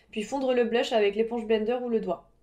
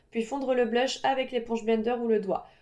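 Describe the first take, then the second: Both takes have the same delivery.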